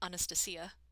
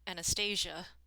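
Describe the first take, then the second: First: The name is said with a Greek pronunciation. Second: The name is said with a Russian pronunciation. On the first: "the Greek pronunciation is Anastasia" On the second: "the Russian Anastasia"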